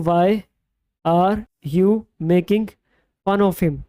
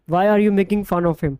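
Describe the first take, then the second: First: Very slow with pauses between word groups; slow, broken into chunks. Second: Said in the usual way. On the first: Shown as a demonstration. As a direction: spell the sentence out piece by piece for students. (धीरे-धीरे, टुकड़ों में रुक-रुक कर)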